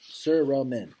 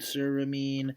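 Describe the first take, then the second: First: The last syllable sounds like 'men'. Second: The last syllable sounds like 'mine'. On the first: The speaker calls it right. "No, men, cerumen" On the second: The speaker calls it wrong. "I was gonna say caramine, ceramine"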